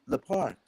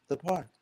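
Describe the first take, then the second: Both takes have the same delivery.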